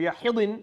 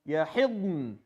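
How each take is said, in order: First: A vowel is inserted between d and n. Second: The d runs straight into n, no vowel. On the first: The speaker calls it wrong. "You can't say yahidn or yahidin" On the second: The speaker calls it right. "go from the dad to the nun without a haraka"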